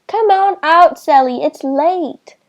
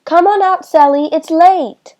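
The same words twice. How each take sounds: First: A loud, high call into the dark, drawn out slowly. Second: Yelling again. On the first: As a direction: call her name across the woods. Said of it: "both boys yelled out". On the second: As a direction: call out harder, starting to worry. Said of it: "They yelled again". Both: A narrator's reading.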